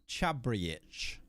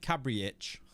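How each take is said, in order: First: The name begins with a CH sound. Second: The name begins with a hard K sound. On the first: The name was said with some thought about it. The speaker calls it right. "Is that C supposed to be Chabriich like that?" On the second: The name was read out without thinking. The speaker calls it wrong. "you'll click on a name and then say it like Cabriich"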